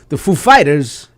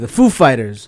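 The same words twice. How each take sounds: First: The stress falls on the word Fighters. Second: The stress falls on the word Foo. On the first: This is a deliberately unusual way to introduce the band. "I do the Foo Fighters" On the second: This is how most people introduce the band. "you put the emphasis on Foo"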